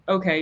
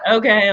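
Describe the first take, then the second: First: It is said flat, with no emotion. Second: It is said with a judging, disapproving tone. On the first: The listener is neutral and passes no judgment. The speaker calls it right. "as in like like deadpan" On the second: The listener judges the person's choices. The speaker calls it wrong. "like clearly you're doing the opposite of what you want"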